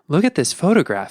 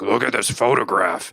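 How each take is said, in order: First: It is said in a gentle, heartfelt way. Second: It is said in a grungy, angry way.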